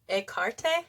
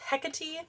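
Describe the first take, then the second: First: The name is pronounced in the Greek way. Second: The name is pronounced in the anglicized English way. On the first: "in Greek, they say to pronounce it like Ekarte" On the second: "the angle size is Hecate"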